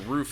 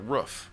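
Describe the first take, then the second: First: The word is said in a standard accent. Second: The word is said in a northern accent.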